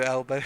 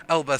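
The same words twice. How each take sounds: First: "Elba" ending in an O sound; mispronounced name. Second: Said in the usual way. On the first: Real, not acted. Streamer misreading a viewer's name, "Elba" said like "Elbow". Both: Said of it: "Elba, sorry".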